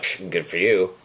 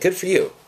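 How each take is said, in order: First: It is said sarcastically and dismissively. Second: It is said sincerely and warmly.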